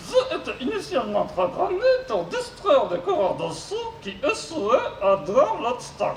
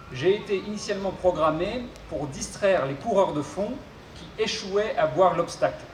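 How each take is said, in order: First: Mangle the consonants like a glitchy robot. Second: Said in the usual way. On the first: Acted. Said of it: "souffre d'une pathologie vocale". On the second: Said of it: "je serai son interprète".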